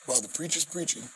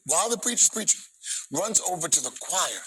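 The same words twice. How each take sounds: First: Said in the usual way. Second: Excited. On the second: Real, not acted. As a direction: let the excitement lift the line. Excited retelling, higher and louder.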